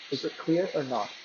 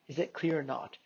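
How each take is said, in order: First: The voice is heard over simulated background noise. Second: The voice is heard without background noise.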